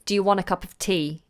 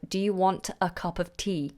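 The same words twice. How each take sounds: First: It is said quickly with the reduced form 'wanna'. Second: It is said carefully with each word in full. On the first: "it's a quick way of talking. So you say" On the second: "instead of"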